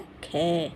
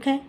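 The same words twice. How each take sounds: First: The consonant is followed by a full vowel sound. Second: The consonant is said alone, clipped, without vowel. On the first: A vowel has been joined to the consonant. "ख में ए मिला दिया जाता है, उस तब बनता है ख" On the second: This is the bare consonant form. "इसको भी जल्दी बोला जाएगा ख, ये व्यंजन का असली रूप है"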